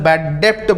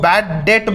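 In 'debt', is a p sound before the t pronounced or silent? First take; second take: pronounced; silent. First: Debt is said with a p sound. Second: Debt is said with no p sound. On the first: The speaker calls it wrong. "बहुत लोग इसे bad डेप्ट बोलते हैं, bad डेप्ट नहीं बोलोगे" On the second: The speaker calls it right. "बैड डेट बोला जाता है"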